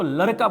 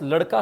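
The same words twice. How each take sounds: First: लड़का with r in place of ड़. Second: Said in the usual way. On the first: Retold or imitated. Teacher showing the girl's word, लड़का said with r. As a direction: say लड़का as "laraka", imitating the pupil. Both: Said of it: "ड की जगह पे वो र बोल रही है".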